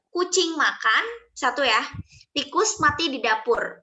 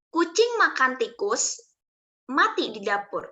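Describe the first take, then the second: First: There is a pause after 'makan'. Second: There is a pause after 'tikus'.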